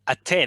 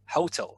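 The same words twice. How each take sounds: First: The stress is on the second syllable. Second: The stress is on the first syllable. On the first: The speaker calls it right. "you stress the second syllable, right?" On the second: The speaker calls it wrong. "Russian people tend to stress the first syllable"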